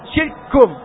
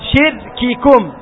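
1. يُدغم الصوتان k في صوت واحد. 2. يُنطق الصوتان k منفصلين. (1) "تدغم الأولى في الثانية" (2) "تقرأ الكاف الأولى والكاف الثانية"

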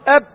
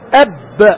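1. الحرف b الأخير يبقى مغلقًا دون انفجار. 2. الحرف b الأخير يُنطق مع انفجار خفيف. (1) "لا نفس ولا صوت" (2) "لما تقاري تسمى القلقلة"

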